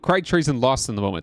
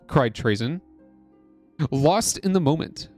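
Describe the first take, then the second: First: It runs on without a stop after 'Trazen'. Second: A full stop falls after 'Trazen'. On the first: The speaker calls it right. "that's how that's supposed to say" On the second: The speaker calls it wrong. "I said that with a period"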